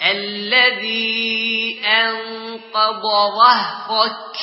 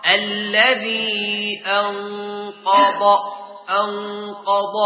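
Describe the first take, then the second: First: أنقض chanted slowly with a light hamza. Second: أنقض with a thickened hamza; wrong heavy hamza. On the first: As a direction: sing أنقض keeping the hamza thin. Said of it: "مراعاة ترقيق الهمزة". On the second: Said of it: "والخطأ". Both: Shown as a demonstration.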